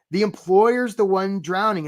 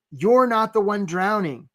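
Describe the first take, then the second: First: "The employer's" weighted, slow and deliberate; stress on employer's. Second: "You're" pushed up and held, slow; stress on you're. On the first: Coach to job seekers, "employer's" stressed slowly. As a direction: land on "The employer's" to flip the idea. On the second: Coach to job seekers, "You're" stressed slowly. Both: Shown as a demonstration.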